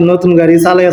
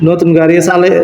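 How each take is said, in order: Both takes have the same delivery.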